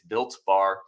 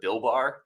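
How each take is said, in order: First: The first word ends with a T sound. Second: The first word ends without a T sound. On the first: The speaker calls it right. "It's Built Bar" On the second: The speaker calls it wrong. "I may have mispronounced it once. I called it Bill Bar"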